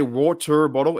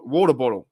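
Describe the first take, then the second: First: Water bottle with "water" as "WAR-turr"; hard R. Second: Water bottle with "water" ending in "-tuh"; Australian soft R. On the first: Australian showing what we don't say, water bottle with hard R. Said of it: "We don't say water bottle". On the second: Australian demonstrating normal usage, water bottle without the R. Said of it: "We say water". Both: Shown as a demonstration.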